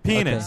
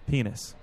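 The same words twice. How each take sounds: First: The word is said louder. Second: The word is said at a normal, softer volume.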